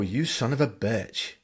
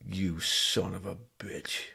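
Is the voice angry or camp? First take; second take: camp; angry. First: It sounds camp and theatrical. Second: It sounds angry, in an American accent. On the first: "a really camp one" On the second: "a really kind of American, really pissed off one"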